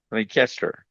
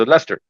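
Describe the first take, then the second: First: Leicester said as "Lie-caster", every letter sounded; spelling pronunciation. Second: Said in the usual way. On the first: Shown as a demonstration. Teacher showing class the letter-by-letter Leicester, spelled-out say. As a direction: say Leicester as it is spelt, "Lie-cas-ter". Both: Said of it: "if we really went with the English letters".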